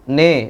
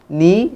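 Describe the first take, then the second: First: The vowel is thick and leans toward e. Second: The vowel is thin and a clear i. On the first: The speaker calls it wrong. "Biasanya ni dibaca tebal" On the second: The speaker calls it right. "Ni sempurnakan harokatnya"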